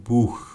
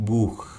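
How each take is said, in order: No difference in how they are said.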